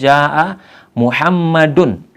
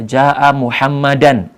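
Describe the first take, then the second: First: Muhammad ends with an 'oo' vowel before the n. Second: Muhammad ends with a non-'oo' vowel before the n. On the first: The speaker calls it right. "harokat dal dari kata Muhammad kita dhammah" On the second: The speaker calls it wrong. "ini bacaan yang salah"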